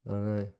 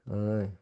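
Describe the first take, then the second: No difference in how they are said.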